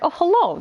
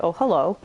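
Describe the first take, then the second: First: High, silly little "Oh, hello"; a goofy high-pitched "hello" at sexy art. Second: Reflexive suggestive hello. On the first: Gamer to chat, doing her silly little hello voice. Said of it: "just in that silly little voice". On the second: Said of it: "a reflexive thing that I do". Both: Retold or imitated.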